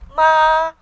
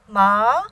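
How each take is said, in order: First: The pitch stays high and level. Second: The pitch rises from middle to high. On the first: "first tone, high and steady" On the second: "second tone, rising"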